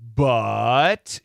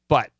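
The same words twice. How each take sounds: First: The vowel is stretched out long. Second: The vowel is short and forceful. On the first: "You could say but" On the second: "nice and short and powerful"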